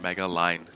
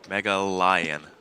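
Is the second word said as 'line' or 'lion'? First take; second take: line; lion. First: The second word sounds like 'line', one syllable. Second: The second word sounds like 'lion', two syllables. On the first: The speaker calls it wrong. "not Mega Line" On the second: The speaker calls it right.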